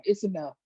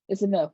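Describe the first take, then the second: First: Said in the usual way. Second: It's enough, repeated a bit louder and more final; firmer repeat. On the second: Retold or imitated. Brother telling his sister he's done, firmer repeat. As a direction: lean into enough the second time. Repeating himself to dismiss her.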